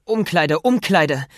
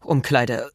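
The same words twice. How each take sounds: First: Urgent calling. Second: Said in the usual way. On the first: Acted. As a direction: call out urgently while running. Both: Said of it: "rief Peter".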